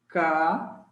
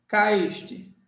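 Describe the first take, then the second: First: "Ca-is-te" in three separated pieces, lower pitch; caíste split apart, each syllable held. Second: Said in the usual way. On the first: Shown as a demonstration. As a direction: sound out Ca-is-te slowly with pauses. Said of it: "Separei a sílaba".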